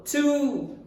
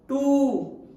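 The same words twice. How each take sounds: First: The t is said like a native English t. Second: The t is said like a Hindi t. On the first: The speaker calls it right. "Correct native pronunciation is T" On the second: The speaker calls it wrong. "but these are wrong pronunciation"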